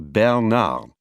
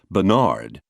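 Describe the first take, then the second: First: Both syllables carry roughly equal stress. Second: The final syllable is heavily stressed. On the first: This is the French pronunciation. "the French say Bernard" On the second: This is an overdone attempt at sounding French. "hurl the emphasis onto the final syllable"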